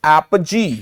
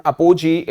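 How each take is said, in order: First: "apogee" slowly as AP-uh-jee; correct pronunciation. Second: "apogee" as a-PO-jee; wrong pronunciation. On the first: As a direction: say "apogee" with "ap" first, no full "po". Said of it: "it is called apogee". ("apogee" को धीरे ऐप-जी बोलें) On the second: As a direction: say "apogee" with a full "po" in the middle. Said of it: "it is never called apogee". ("apogee" को अपोजी बोलें) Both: Shown as a demonstration.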